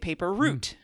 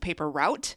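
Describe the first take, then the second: First: Route rhymes with boot. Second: Route rhymes with out. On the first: The speaker calls it right. "Nope, it's a paper route" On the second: The speaker calls it wrong. "the vast majority of people pronounce the word root incorrectly"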